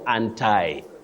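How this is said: It is said in an American accent. "in American English and some of the fashionable soundings, you may hear of anti"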